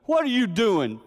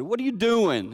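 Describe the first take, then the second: First: Loud, high challenge; grandpa's stern shout. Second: Loud, high challenge; stern shout. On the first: Grandfather catching a man in the yard, loud stern shout. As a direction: bark the question like a stern grandfather. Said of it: "he goes". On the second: Misspoken retelling of grandpa confronting dad, stern shout. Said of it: "my brother said". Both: Retold or imitated.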